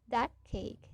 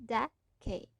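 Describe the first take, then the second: Both takes have the same delivery.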